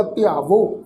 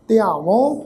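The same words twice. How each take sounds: First: ਧਿਆਵੋ with h merged into a toned final o; toned o ending. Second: ਧਿਆਵੋਂ with a nasalised final au; nasal ending. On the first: Teacher explains silent haha, ਧਿਆਵੋ with toned o. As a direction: end ਧਿਆਵੋ on a rising o without nasality. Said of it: "ਇਹ ਵਾਵੇ ਅੱਖਰ ਦੇ ਨਾਲ ਮਿਲ ਵੀ tone ਵਿੱਚ ਉਚਾਰਨ ਹੋਏਗਾ". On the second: Teacher contrasts verb forms, ਧਿਆਵੋਂ with nasal last vowel. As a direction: end ਧਿਆਵੋਂ through the nose. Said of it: "ਨਾਲ ਬਿੰਦੀ ਸਹਿਤ ਨਾਸਕੀ ਉਚਾਰਨ". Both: Shown as a demonstration.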